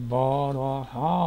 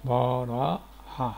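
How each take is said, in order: First: بارہا stretched very slow with a rise; drawn-out headword. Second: بارہا stretched very slow with a fall; very slow headword. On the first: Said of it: "آگے ہے". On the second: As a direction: draw بارہا out slowly, landing down. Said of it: "برخ". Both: Shown as a demonstration.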